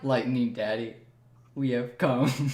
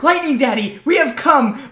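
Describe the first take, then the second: First: It is said in a flat, tired, low-energy way. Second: It is said with lively, energetic delivery. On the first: The speaker sounds like they lack energy. The speaker calls it wrong. "you sounded like you didn't get your morning coffee" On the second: This is how the line was expected to sound. The speaker calls it right. "I expected it"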